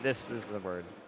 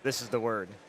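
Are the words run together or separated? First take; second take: separated; run together. First: The words are separated by small gaps. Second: The words are run together without gaps.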